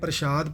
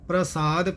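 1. ਇਹ ਸ਼ਬਦ ਸ਼ ਦੀ ਆਵਾਜ਼ ਨਾਲ ਬੋਲਿਆ ਜਾਂਦਾ ਹੈ। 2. ਇਹ ਸ਼ਬਦ ਸ ਦੀ ਆਵਾਜ਼ ਨਾਲ ਬੋਲਿਆ ਜਾਂਦਾ ਹੈ। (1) "ਕਈ ਗੁਰਮੁਖ ਪਿਆਰੇ ਪ੍ਰਸ਼ਾਦ ਪਾਠ ਕਰਦੇ ਹਨ, ਪਰ ਨਹੀਂ" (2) "ਪ੍ਰਸਾਦ ਪਾਠ ਕਰਨਾ ਹੈ"

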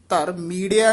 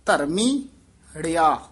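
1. ਇਹ ਸ਼ਬਦ ਜੋੜ ਕੇ ਬੋਲਿਆ ਜਾਂਦਾ ਹੈ, ਕੋਈ ਵਿਰਾਮ ਨਹੀਂ। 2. ਅੰਤਲੇ ਹਿੱਸੇ ਤੋਂ ਪਹਿਲਾਂ ਇੱਕ ਛੋਟਾ ਵਿਰਾਮ ਆਉਂਦਾ ਹੈ। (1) "ਧਰਮੀੜਿਆ ਨਹੀਂ ਕਹਿਣਾ ਹੈ" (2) "ਧਰਮੀ ਬੋਲ ਕੇ ੜਿਆ ਪਦ ਤੋਂ ਡੈਸ਼ ਦੇਣੀ ਹੈ"

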